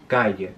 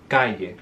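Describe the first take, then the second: First: It is said in a Cordobés accent. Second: The same.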